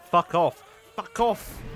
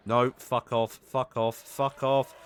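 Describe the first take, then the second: First: Much louder, higher, yelled all out; furious yell. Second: Loud, fed-up swearing at an attacker; angry shouting. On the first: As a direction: scream it in real rage at the fish. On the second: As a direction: bark it at the fish to go away. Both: Real, not acted. Attacked by crash fish.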